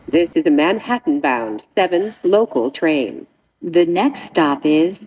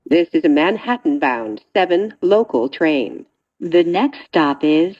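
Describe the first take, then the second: No difference in how they are said.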